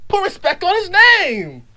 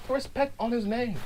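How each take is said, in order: First: High, emphatic cry; impassioned high-pitched insistence; indignant demand. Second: Much softer, solemn insistence; quietly insistent; hushed demand. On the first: Indignant demand to respect the rapper. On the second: Same demand repeated, suddenly hushed. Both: Acted.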